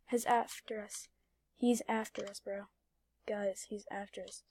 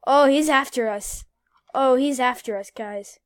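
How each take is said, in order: First: Quiet. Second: Alarmed. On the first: Repeated quietly. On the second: Alarmed as police chase. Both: Real, not acted.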